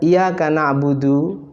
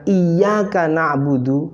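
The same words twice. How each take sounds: First: The y sound in iyyaka is short and single. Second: The y sound in iyyaka is held and doubled. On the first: We worship the sun. The speaker calls it wrong. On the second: Only You we worship. The speaker calls it right.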